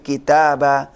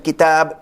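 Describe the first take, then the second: First: The word ends with a plain 'a' vowel. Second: The word ends on a bare 'b' sound. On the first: The speaker calls it right. "tapi kitaba itu kalau tanwin fathah" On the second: The speaker calls it wrong. "bukan kitab disukunkan"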